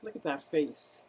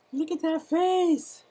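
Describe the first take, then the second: First: Said in the usual way. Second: High, slow coo of "Look at that face" to the turtle; much higher, slower cutesy coo; cooing baby talk. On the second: Shown as a demonstration. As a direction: gush over the little turtle like talking to a baby.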